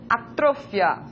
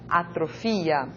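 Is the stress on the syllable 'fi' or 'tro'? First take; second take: tro; fi. First: The stress falls on the syllable 'tro'. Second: The stress falls on the syllable 'fi'.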